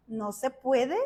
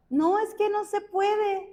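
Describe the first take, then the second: First: "No se puede" as a low question rising at the end; questioning echo. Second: High-pitched protest, as if making excuses; protesting objection. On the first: God answering the believer's excuse, low questioning echo. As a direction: turn "puede" upward into a mild challenge. God's questioning reply to the objection. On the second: Believer telling God it cannot be done, high protesting objection. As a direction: push back in a raised pitch. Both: Retold or imitated.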